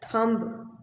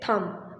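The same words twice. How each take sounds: First: The word ends with a sounded B. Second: The word ends in M, B silent. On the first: The speaker calls it wrong. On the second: The speaker calls it right.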